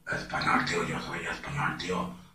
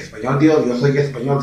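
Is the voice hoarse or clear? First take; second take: hoarse; clear. First: It is said in a hoarse, raspy voice. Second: It is said in a clear, normal voice.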